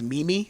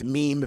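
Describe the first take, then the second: First: The word is said as two syllables. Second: The word is said as one syllable. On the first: The speaker calls it wrong. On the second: The speaker calls it right.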